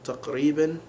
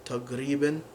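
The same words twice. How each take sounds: First: Taqriban with a back-of-throat q sound, as in modern standard Arabic. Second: Taqriban said as tagriban, the q turned into a hard G; Saudi taqriban. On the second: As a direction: say taqriban with a G sound instead of the q, Saudi style. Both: Shown as a demonstration. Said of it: "becomes taqriban".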